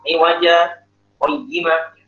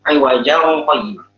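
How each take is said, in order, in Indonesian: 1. Ada jeda singkat yang memisahkan kedua kata itu. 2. Kedua kata itu tersambung tanpa jeda. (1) "kalau sakta" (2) "Kan tangan tangan ketemu qaf hukumnya ikhfa"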